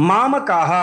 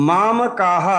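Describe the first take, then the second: No difference in how they are said.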